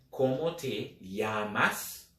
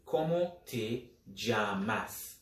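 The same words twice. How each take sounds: First: "llamas" with the ll sounded like English y. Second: "llamas" said "jamas" with an English J; "llamas" with the ll sounded like the j in jam; Caribbean "llamas" with a J sound. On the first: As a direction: Latin American "llamas" with a Y sound. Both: Shown as a demonstration. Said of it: "either as a J or a Y".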